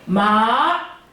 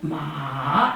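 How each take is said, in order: First: The pitch rises straight up from middle to high. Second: The pitch starts low, dips, then rises. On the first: "이성은 어떻게 해요?" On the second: "삼성은 마 이렇게 하고"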